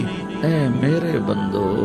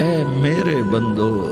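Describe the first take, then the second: No difference in how they are said.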